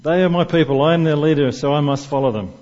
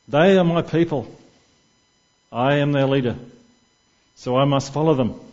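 First: The whole room parroting him back, loud; colleagues echoing. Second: Statesman-like declaration. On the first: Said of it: "all the other guys in the room go". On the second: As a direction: hand on heart, grand politician's speech. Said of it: "puts his hand on his heart and gazes up in the sky". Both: Retold or imitated.

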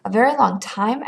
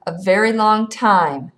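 First: Dismayed question, rising at the end; disheartened, questioning repeat; discouraged echo. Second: Slow, weighty answer, falling at the end; leisurely, emphatic pronouncement; drawn-out teasing. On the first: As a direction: echo it back with sinking hope. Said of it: "echoed Galen, discouraged". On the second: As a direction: stretch out every word to needle him. Boy teases with drawn-out answer. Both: A narrator's reading.

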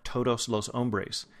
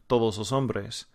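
First: Todos los hombres slow, with aspirated American t; American accent in Spanish. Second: Native Spanish. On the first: Teacher mocking how Americans speak Spanish, American accent. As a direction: say todos los hombres like a gringo, crisp and clean. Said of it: "it sounds like". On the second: Teacher imitating a Spaniard saying all the men, native Spanish. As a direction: say todos los hombres like a native Spaniard. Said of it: "a Spaniard ... saying". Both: Shown as a demonstration.

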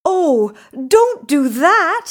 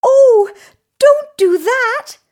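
First: Loud, high goat plea; raised creature voice, pleading; middle-sized goat. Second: Very high, loud tiny goat plea; small creature pleading at high pitch; little goat. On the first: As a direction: cry out as a medium-sized goat. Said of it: "said the middle-sized Billy Goat Gruff". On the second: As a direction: cry out in a squeaky-high goat voice. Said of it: "said the little Billy Goat Gruff". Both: A narrator's reading.

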